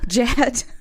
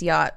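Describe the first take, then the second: First: The name begins with a j sound. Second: The name begins with a y sound. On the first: The speaker calls it wrong. "glad I didn't say like Jet" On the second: The speaker calls it right. "I think it's Yacht, I guess, is how it's pronounced"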